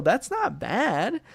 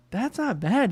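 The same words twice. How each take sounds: First: Very slow, softer, rising on not; drawn-out rising take. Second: Said in the usual way. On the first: Shown as a demonstration. Streamer reassures himself about the grade, slow rising drawl. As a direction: stretch it out and let it lift at the end.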